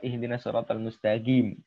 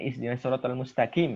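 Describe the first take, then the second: First: Mustaqim has a g sound. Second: Mustaqim has a k sound. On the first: "dengan G" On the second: "itu salah dengan kaf"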